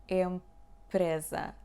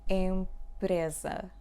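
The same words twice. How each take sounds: The two takes are said the same way.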